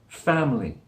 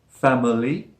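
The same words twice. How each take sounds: First: The word is said with two syllables. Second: The word is said with three syllables. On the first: The speaker calls it right. "it sounds like family" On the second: The speaker calls it wrong. "We don't say family"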